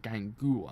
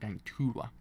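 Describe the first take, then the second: First: The name is said without a t sound. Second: The name is said with a t sound. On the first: The speaker calls it wrong. "I thought it's got Gangua" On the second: The speaker calls it right. "it's actually a T in it"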